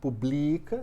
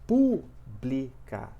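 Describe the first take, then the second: First: The stress is on the second syllable. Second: The stress is on the first syllable. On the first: The speaker calls it wrong. "Se fosse publica, seria paroxítona" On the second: The speaker calls it right. "a antepenúltima sílaba ela é mais forte"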